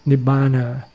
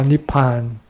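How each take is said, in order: First: The word has three syllables with a B sound. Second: The word has two syllables with a P sound. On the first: This is the Pali pronunciation. "you read the Pali" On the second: This is the Thai pronunciation. "In Thai we call Nippan"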